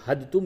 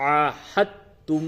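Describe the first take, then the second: First: The middle sounds are pronounced separately. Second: The middle sounds are joined together. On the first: The speaker calls it wrong. "बहुत से लोग हद तुम पढ़ते तो हद तुम ये गलत है" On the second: The speaker calls it right. "ये जो हा है इसको आप ता से मिलाएंगे"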